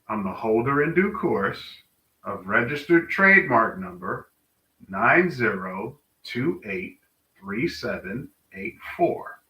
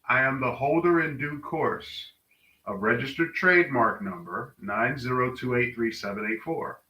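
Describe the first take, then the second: First: It is said slowly and deliberately. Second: It is said at a normal speed.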